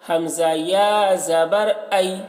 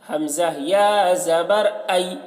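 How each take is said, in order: The two takes are said the same way.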